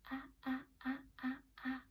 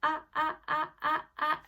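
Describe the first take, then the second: First: Careful, higher, softened sounds; tentative and gentle; cautiously. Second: Bold, loud, higher bursts; bravely. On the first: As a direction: place each sound gingerly. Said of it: "Say it cautiously". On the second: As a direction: punch each sound out boldly. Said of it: "Say it bravely". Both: Shown as a demonstration.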